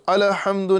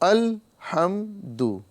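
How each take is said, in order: First: The l sound is released with an echoing bounce. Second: The l sound is held quietly without a bounce. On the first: The speaker calls it wrong. "इसमें क़लक़ला नहीं करना है, यानी अलहम्दु अलहम्दु नहीं कहना है" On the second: The speaker calls it right. "बल्कि अलहम्दु अलहम्दु"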